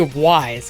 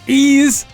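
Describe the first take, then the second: First: The name sounds like the word 'wise'. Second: The name sounds like the word 'ease'. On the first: The speaker calls it wrong. "I used to say Wise because it very clearly says Y S" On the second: The speaker calls it right. "it's actually pronounced"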